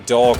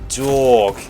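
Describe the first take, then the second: First: The vowel is a plain, short o sound. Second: The vowel is a long, drawn-out aw sound. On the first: "they don't say dog" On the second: "they say dog, like D A W G"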